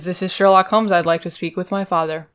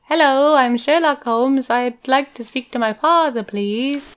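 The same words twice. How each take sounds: First: Said in the usual way. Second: High, slow, overly polite son on the phone; wheedling son. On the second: Pretend. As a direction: lay on sweetness to ask a favor. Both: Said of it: "let's reenact the phone call".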